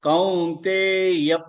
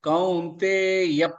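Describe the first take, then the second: No difference in how they are said.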